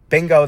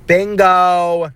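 First: Said in the usual way. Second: Excited exclaim. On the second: Real, not acted. Remembers what she said.

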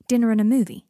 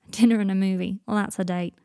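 First: Loud, insistent, stubborn statement. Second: Emphatic, amused pointing-out. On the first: Draco insisting to Potter it was a date, stubbornly. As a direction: dig your heels in, loudly. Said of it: "said Draco stubbornly". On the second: Seven teasing Draco about his companion, amused. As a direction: say it as if just after a laugh. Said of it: "Seven laughed". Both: A narrator's reading.

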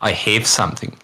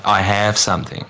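First: "have" said as "hiv", clipped Kiwi vowel in "I have something"; light New Zealand "I have something"; Kiwi pronunciation. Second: "have" said with an open Australian a, "I have something"; light Australian "I have something"; Australian pronunciation. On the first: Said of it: "a Kiwi will go". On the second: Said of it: "Jack will probably say". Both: Shown as a demonstration.

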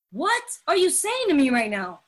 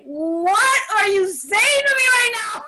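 First: Incredulous, at a normal volume; mildly dramatic challenge; dramatic disbelief. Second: High, loud, incredulous shout; overdramatic outburst. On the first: Speaker reacting to the program's teaching, in dramatic disbelief. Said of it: "maybe I'm a little overly dramatic". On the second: Speaker reading the big book, shouting in melodramatic disbelief. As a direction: wail it like a telenovela heroine. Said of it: "us Latinos are very dramatic". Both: Retold or imitated.

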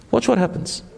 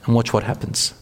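First: Watch what happens pitched much higher, pressed home; emphatic repeat. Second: Said in the usual way. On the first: Shown as a demonstration. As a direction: repeat it high to drive the point in. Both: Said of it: "Have that mindset".

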